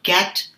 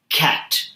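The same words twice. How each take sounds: First: The first K sound is light. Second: The first K sound is heavy. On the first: The speaker calls it wrong. "it's not cat" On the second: The speaker calls it right.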